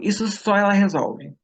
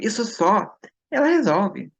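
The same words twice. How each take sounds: First: It is said without a pause. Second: There is a pause after 'só'.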